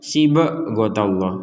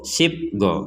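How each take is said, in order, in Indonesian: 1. Bunyi b diberi vokal tambahan penuh. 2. Bunyi b dipotong singkat tanpa pantulan. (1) "itu kan terlalu" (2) "Kan gak ada pantulannya itu"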